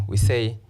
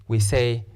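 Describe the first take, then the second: Both takes have the same delivery.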